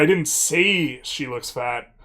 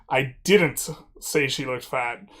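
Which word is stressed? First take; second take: say; didn't. First: The word "say" carries the stress. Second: The word "didn't" carries the stress. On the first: The speaker thought it but never said it. "means I didn't say it, but I thought it" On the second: The speaker firmly denies saying it. "just strongly asserting that this is not something I did"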